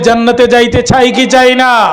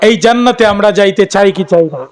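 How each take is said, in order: First: It is said more loudly. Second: It is said at normal loudness.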